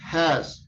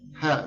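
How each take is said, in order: First: The word ends with a buzzing z sound. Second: The word ends without any final z sound. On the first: The speaker calls it right. "it's has" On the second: The speaker calls it wrong. "You don't say, ha, no"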